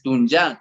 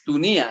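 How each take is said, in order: First: The name has its indigenous pronunciation. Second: The name has its Spanish-style pronunciation. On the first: This is the community's own form. The speaker calls it right. "para nosotros es Tunyá" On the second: This is the outsiders' mispronounced form. The speaker calls it wrong. "no es Tunía"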